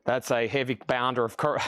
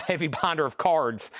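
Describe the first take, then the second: First: Said in the usual way. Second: "cards" said right through a chuckle; laughing correction. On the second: Real, not acted. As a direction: fix the slip while laughing at it.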